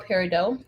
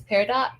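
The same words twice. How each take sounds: First: Peridot said PAIR-uh-doh; peridot with silent T. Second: Peridot said PAIR-uh-dot; peridot with sounded T. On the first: Offering viewers the other pronunciation, peridot as PAIR-uh-doh. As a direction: end peridot on "doh", dropping the T. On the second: Explaining shirt stone colors to viewers, peridot as PAIR-uh-dot. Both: Shown as a demonstration. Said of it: "depending on how you choose to say it".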